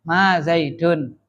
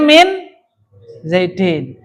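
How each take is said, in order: First: "Zaidun" drawn out slowly, last syllable -dun; slow -un ending. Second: "Zaidin" with an i in the last syllable, -din; -in ending after min. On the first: Teacher reverts the example after ma, slow -un ending. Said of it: "bukan pengejar toh". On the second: Teacher reads the example after min, -in ending. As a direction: end "Zaidin" in -in. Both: Shown as a demonstration.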